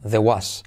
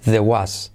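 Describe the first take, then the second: Both takes have the same delivery.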